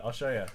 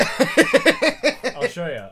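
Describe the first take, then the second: First: Said in the usual way. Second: Drawn-out, high, loud taunting voice; mock threat. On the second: Host taunting Mel Gibson, loud, high, drawn-out mock threat. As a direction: stretch it out like a cartoon bully.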